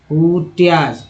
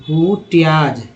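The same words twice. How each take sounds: First: Said in the usual way. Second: हुट्याज said slowly, syllable by syllable; slow model reading. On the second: Shown as a demonstration. Teacher repeating the word for learners, slowly. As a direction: drag out हुट्याज so students catch each sound.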